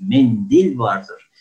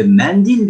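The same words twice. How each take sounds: First: "Mendil" with a closed E, slow and deliberate; correct closed E. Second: "Mendil" with an open E, higher and louder; wrong open E. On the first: Shown as a demonstration. Teacher giving students the correct "Mendil". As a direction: model the right "Mendil" slowly. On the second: Retold or imitated. Teacher contrasting wrong and right "Mendil". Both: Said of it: "Mendil diye bir kelime yoktur".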